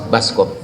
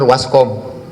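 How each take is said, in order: First: The word begins with a B sound. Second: The word begins with a W sound. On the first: This is how people here commonly say it. The speaker calls it wrong. "orang kita nyebutnya baskom" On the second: This follows the original Dutch word for washing. The speaker calls it right. "Yang benar waskom"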